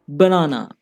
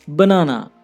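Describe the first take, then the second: Both takes have the same delivery.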